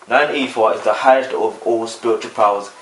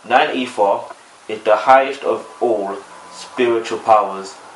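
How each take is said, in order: First: It is spoken at a fast pace. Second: It is spoken at a slower pace. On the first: "a lot of people say I speak too fast" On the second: "Let me slow that down"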